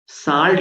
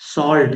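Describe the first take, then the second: First: The vowel sounds like an open 'aa'. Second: The vowel sounds like a rounded 'aw'. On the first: The speaker calls it wrong. "साल्ट नहीं है" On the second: The speaker calls it right. "सॉल्ट है"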